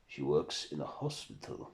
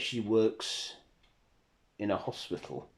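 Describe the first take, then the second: First: Lower, softly puzzled question with a rise; questioning Dracula. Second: Said in the usual way. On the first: Acted. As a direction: ask it low, lifting at the end. Dracula queries what was narrated.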